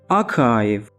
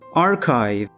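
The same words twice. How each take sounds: First: It is said with a British accent. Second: It is said with an American accent. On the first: "In British English, we pronounce it as archive" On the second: "In American English, we pronounce it as archive"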